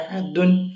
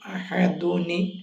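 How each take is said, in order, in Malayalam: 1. ഈ വാക്ക് വെറും "n" ശബ്ദത്തിലാണ് അവസാനിക്കുന്നത്. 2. അവസാനത്തെ "n"-ൽ ഒരു "i" സ്വരം കൂടിയുണ്ട്. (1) "അഹദുൻ എന്നുള്ള തൻവീന് ലാസ്റ്റിൽ ഒരു നൂൻ ഉണ്ടല്ലോ" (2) "അഹദുൻ എന്നുള്ള നൂനിന് അഹദുനിയാവും"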